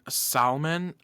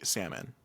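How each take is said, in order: First: The word is said with an L sound. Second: The word is said without an L sound. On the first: The speaker calls it wrong. "I have heard people say it like that" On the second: The speaker calls it right. "we know how to pronounce it correctly. Salmon. No L"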